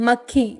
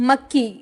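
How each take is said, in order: No difference in how they are said.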